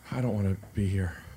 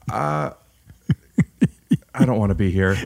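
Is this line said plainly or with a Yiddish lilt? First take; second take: plain; Yiddish. First: It is said with little Yiddish inflection. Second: It is said with a stronger Yiddish inflection. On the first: The speaker calls it wrong. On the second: The speaker calls it right.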